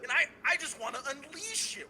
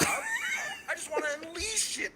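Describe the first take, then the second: First: A touch of raised anger; mild anger. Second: High, slow angry yell; unleashed anger. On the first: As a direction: lean into it, half laughing. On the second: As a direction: finally let the rage burst out. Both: Real, not acted. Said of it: "I feel genuine anger right now".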